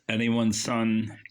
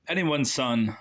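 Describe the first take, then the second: First: The voice sounds thick with phlegm in the throat. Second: The voice sounds clear, without phlegm in the throat. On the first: The speaker calls it wrong. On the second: The speaker calls it right.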